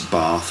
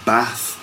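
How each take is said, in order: First: It is said in a southern English accent. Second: It is said in a northern English accent. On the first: "We'd say those things in London here" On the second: "in the north"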